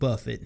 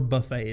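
First: The name is said with an ordinary English pronunciation. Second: The name is said with a French pronunciation.

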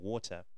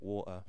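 First: The middle consonant is a clear T sound. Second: The middle consonant is a glottal stop. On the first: "instead of saying water" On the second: "get replaced by a glottal stop"

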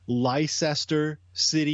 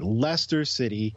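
First: The first word does not sound like Lester. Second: The first word sounds like Lester. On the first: The speaker calls it wrong. "if you say Leicester City, you're going to get laughed at" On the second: The speaker calls it right. "Just think of the guy's name like Lester"

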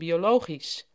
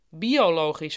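First: The stress is late in the word. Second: The stress is early in the word. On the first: This is the older way of saying it. "in plaats van" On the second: This is the newer way of saying it. "hoor je ook vaak"

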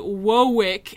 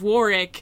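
First: The word is said with a speech impediment. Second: The word is said in a normal way. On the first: "if the most hashtag effort you can put out on making a guy sound deaf is by having him say Warwick" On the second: "instead of Warwick"

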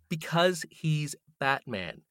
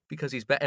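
First: It sounds strongly incredulous. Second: It sounds only mildly incredulous.

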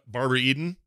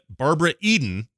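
First: The name is said plainly, without special emphasis. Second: The name is said with strong, dramatic emphasis.

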